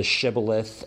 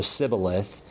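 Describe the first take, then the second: First: "shibboleth" opening on a SH sound; correct shibboleth pronunciation. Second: "sibboleth" opening on a plain S sound; Ephraimite mispronunciation. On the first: Lecturer explaining the river password, "shibboleth" said with initial SH. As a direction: say "shibboleth" with SH at the front. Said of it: "pronounced, uh, you know, um, incorrectly". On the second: Lecturer showing the Ephraimites' slip, "sibboleth" said with initial S. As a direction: say "sibboleth" with S replacing the SH. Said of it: "incorrectly by the, the Ephraimites". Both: Shown as a demonstration.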